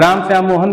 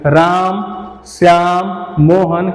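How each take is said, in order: First: The names are said quickly without pauses. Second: The names are said slowly with pauses. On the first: The sentence has no commas. "अगर ये चिन्ह नहीं रहता तो बोलते हैं" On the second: The sentence has commas. "ठहराव चिन्ह लगा हुआ है तो उसमें आराम से पढ़ते चलेंगे"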